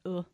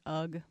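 First: The word ends on an open vowel sound. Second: The word ends with a hard g sound. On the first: The speaker calls it right. "but UH" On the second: The speaker calls it wrong. "UGH is not pronounced"

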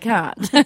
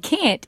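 First: It is said with an Australian accent. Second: It is said with an American southern accent. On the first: This is how the word sounds when she talks. "instead of can't" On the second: This is how the word sounds when she sings. "hear me say can't"

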